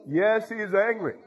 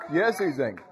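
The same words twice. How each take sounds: First: "Yes, he's angry" pitched higher and drawn out slowly; preacher hammering "Yes, he's angry" home; emphatic, slowed declaration. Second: Said in the usual way. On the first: Acted. Repeated affirmation, built up.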